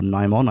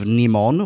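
First: "Nimon" with first syllable like nigh; alternative pronunciation. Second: "Nimon" with first syllable like knee; first pronunciation guess. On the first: Reviewer offering another reading of the title, "Nimon" as NYE-mon. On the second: Reviewer unsure of a classic serial's title, "Nimon" as NEE-mon. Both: Shown as a demonstration. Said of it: "I'm not sure how to pronounce it".

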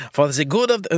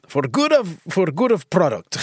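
First: Botched attempt at a German accent. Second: Hammed-up amateur Russian accent. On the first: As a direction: slip into a rough German accent. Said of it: "I was doing German". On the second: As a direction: try a rough Russian accent. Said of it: "I can't do a Russian accent".

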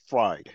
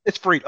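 First: "Fried" with a long i, rhyming with "ride"; Fried as "fryed". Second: "Fried" with a long ee, rhyming with "need"; Fried as "freed". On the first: Host settles on a surname, "Fried" rhyming with "ride". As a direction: pronounce "Fried" like the cooked food. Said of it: "I'm gonna say Fried". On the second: Host repeats the co-host's correction, "Fried" said as "freed". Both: Shown as a demonstration.

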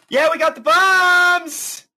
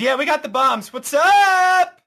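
First: High, triumphant yell; excited shout. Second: Excited greeting. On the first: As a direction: crow it out proudly. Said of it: "and she goes". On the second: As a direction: greet them like heroes. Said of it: "offloads and says". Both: Acted.

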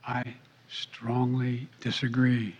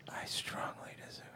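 First: Slow breathy whisper into the mic; giggly prank whisper. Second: Mocking whisper echo; giggly prank whisper. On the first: Retold or imitated. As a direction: whisper it slowly, close to the mic. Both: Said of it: "The whispering into the mic".

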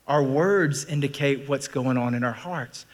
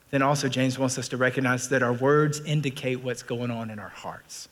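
First: Slow, deliberate, each word weighed: "Our words indicate what's going on in our hearts"; slow repeat that drives the point home; slow emphatic restatement. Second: Said in the usual way. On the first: Shown as a demonstration. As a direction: lean on "words" and let the line land slowly. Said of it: "repeated for emphasis". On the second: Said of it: "repeats the line deliberately".

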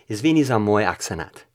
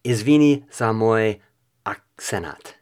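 First: Serbian attempt run together in one go; louder, more connected stab at Serbian; butchered Serbian. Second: Slow Serbian attempt, pausing before "akcenat"; butchered Serbian. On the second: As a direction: sound out Serbian haltingly, louder on "Izvini". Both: Shown as a demonstration. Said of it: "And now for Serbian".

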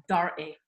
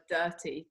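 First: "Dirty" with a Scottish tapped r; Scottish accent "Dirty". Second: Said in the usual way. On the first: Retold or imitated. Actress imitating her Scottish co-star, Scottish "Dirty". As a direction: say "Dirty" as a Scot would, r sounded. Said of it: "the way it sounded in a Scottish accent". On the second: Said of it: "say the word dirty to me".

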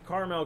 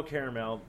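First: "Caramel" said as CAR-mel; two-syllable pronunciation. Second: "caramel" said as CARE-uh-mel; three-syllable pronunciation. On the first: Co-host offers both ways, "Caramel" as CAR-mel. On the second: Co-host offers both ways, "caramel" as CARE-uh-mel. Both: Shown as a demonstration. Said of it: "You can say whatever you wanna say".

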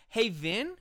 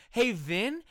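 Both takes have the same delivery.

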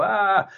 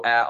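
First: High drawn-out mock "aah"; haunted-house scream. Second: Short, restrained "ah"; inward gasp. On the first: Imitating a haunted-house visitor's reaction, mock scream. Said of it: "Halloween haunted house that makes you go". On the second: Retold or imitated. Describing a film that shakes you inside, restrained "ah". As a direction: hold the mock scream inside. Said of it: "on the inside and go".

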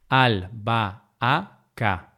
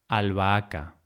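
First: Albahaca broken slowly into al, ba, a, ca; syllable by syllable. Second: Said in the usual way. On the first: Shown as a demonstration. Teacher dividing albahaca to show the hiato, syllable by syllable. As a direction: say "albahaca" as four separate syllables.

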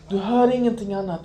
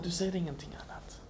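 First: Said in the usual way. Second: Whispered softly, unvoiced. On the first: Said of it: "hör/ser parallel". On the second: Shown as a demonstration. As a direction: let it fall to a whisper. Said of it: "whispered repetition".

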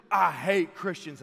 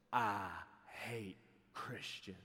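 First: Loud, slow declaration of hate; hostile outburst. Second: Low, very slow, quiet threat; hushed, drawn-out hostility; menacing confrontation. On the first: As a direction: throw it out loudly, stretching the words. Repeats the mohawk man's confrontation. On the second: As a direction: say it slowly and low, right in his face. Mohawk man's menacing confrontation. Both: Retold or imitated.

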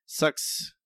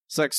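First: Breathy whispered "Sucks"; hushed disgusted "Sucks"; whispered verdict. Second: Said in the usual way. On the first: Real, not acted.

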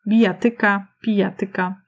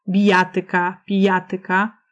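First: Bijatyka, pijatyka stressed on TY; stress on second-last syllable. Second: Bijatyka, pijatyka stressed on JA; stress on third-last syllable. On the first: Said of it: "powinny mieć zwykły akcent paroksytoniczny". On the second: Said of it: "akcentuje się na trzecią sylabę od końca". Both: Shown as a demonstration.

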